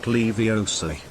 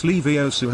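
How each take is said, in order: First: "Leviosa" said slowly as "Levio-SA", stress on the end; the wrong "Leviosa", slow, last syllable pushed. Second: "Leviosa" said as "Levi-O-sa", stress on O; Hermione's correct Leviosa. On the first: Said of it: "It's Leviosa". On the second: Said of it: "not Leviosa". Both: Retold or imitated.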